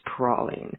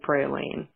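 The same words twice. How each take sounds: First: It is said the Louisiana way, without a hard A. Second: It is said the Texan way, with a hard A.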